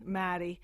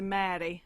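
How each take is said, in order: First: It is said in a Scottish accent. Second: The same.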